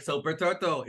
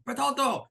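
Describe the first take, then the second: First: Said in the usual way. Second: "Bertolto!" cried out high, with a final o added; imitated anguished cry of "Bertolto!"; Japanese-style name call. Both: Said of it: "how they say it in Japanese".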